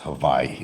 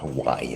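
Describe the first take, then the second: First: The middle consonant is said like a V. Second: The middle consonant is said like a W. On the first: The speaker calls it right. "I want to pronounce it correctly. It's Hawaii" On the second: The speaker calls it wrong. "not Hawaii"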